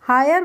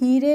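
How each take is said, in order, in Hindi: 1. स्वर 'ai' की ध्वनि है, जैसे 'eye' में। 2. स्वर लंबी 'ee' की ध्वनि है। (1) "इसको हम हायर पढ़ेंगे" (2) "इसको हम हीरे नहीं पढ़ते हैं"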